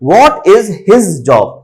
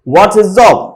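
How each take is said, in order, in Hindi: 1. हर शब्द, 'his' सहित, पूरा बोला जाता है। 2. 'What is' संक्षिप्त होकर बोला जाता है और 'his' हल्का कर दिया जाता है।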